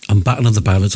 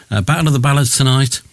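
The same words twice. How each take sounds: First: Talking round a sweet in the mouth; mouth full. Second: Said in the usual way. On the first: Real, not acted. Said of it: "I've got something in my mouth". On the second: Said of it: "I've took it out so I can do the rest".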